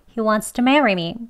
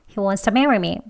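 First: Wants to is slightly reduced with an s-like sound. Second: Wants to is said more weakly and reduced. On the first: "공기 살짝 새어 나가게요. 스소리 들어갑니다. 조금 빨리 할게요" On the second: "더 약하게 발음합니다"

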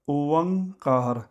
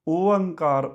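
First: A v sound links the first two vowels. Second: The vowels run together with no v sound. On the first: The speaker calls it right. "ਅਸੀਂ ਕਹਿਣਾ ਓਵੰਕਾਰ" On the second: The speaker calls it wrong. "ਓਅੰਕਾਰ ਨਹੀਂ ਕਹਿਣਾ, ਇਹ ਗਲਤ ਹੈ।"

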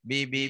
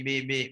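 No difference in how they are said.

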